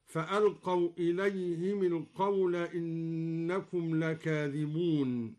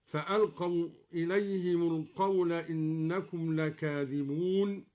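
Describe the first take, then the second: First: "إليهم القول" linked as ilayhimi-l-qawl; short i after the mim in "إليهم"; kasra on the mim. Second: Said in the usual way. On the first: Shown as a demonstration. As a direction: link "إليهم" onward with mi, never mu. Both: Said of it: "بكسر الميم هكذا".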